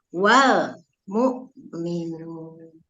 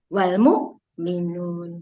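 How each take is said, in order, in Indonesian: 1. L akhir pada 'wal' ditahan satu ketuk. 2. L akhir pada 'wal' dipotong terlalu pendek. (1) "harus satu ketuk" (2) "Bukan ... keseret. Jadi dia kurang dari satu ketuk"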